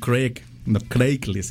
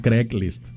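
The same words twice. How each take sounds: First: Craig has a long ay vowel. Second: Craig has a short e vowel. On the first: The speaker calls it wrong. "No Craigslist" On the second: The speaker calls it right. "se dice Craigslist. Craig. Como si fuera Greg, pero con C"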